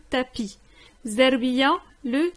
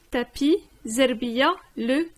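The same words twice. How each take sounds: The two takes are said the same way.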